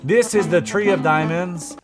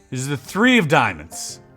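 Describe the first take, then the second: First: It is said in a French Canadian accent. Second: It is said in his plain accent.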